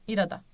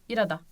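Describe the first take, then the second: Both takes have the same delivery.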